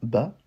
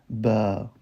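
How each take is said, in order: First: The vowel is short and plain. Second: The vowel is slightly lengthened. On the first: "lorsqu'il n'y aura pas d'accent, on dira tout simplement bas" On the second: "On allongera légèrement le son"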